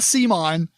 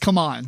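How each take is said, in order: First: The name sounds like the word Simon. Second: The name sounds like the words come on. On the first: The speaker calls it wrong. "not Simon" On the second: The speaker calls it right. "It's come on"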